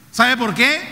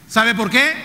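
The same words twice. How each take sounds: The two takes are said the same way.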